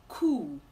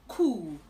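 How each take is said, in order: No difference in how they are said.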